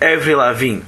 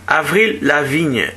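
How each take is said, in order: First: The name is pronounced the English way. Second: The name is pronounced the French way. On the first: This is the commercial form of the name. "para efeitos comerciais, Avril Lavigne ficou mais fácil de pronunciar. Tem mais a ver com a língua inglesa" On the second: This is the original form of the name. "ou melhor"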